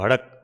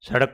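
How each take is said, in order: First: The word begins with an h sound. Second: The word begins with an s sound.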